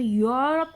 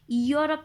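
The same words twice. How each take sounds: First: यूरोप said as "yo-rup", opening on a y-glide; correct pronunciation demo. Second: यूरोप opened on an extra "ee" sound; wrong pronunciation demo. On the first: Teacher showing students how it is said, यूरोप as "yo-rup". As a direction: start यूरोप with "yo". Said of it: "यूरोप कहा जाता है इसको". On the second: Teacher showing students how it is not said, यूरोप as "ee-yo-rup". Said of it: "यूरोप नहीं कहा जाता है इसको". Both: Shown as a demonstration.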